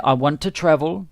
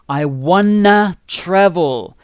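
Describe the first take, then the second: First: 'Want' and 'to' are both said clearly. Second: 'Want to' is blended into 'wanna'. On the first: "I pronounce the the two" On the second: "when people speak, they say I wanna travel like this"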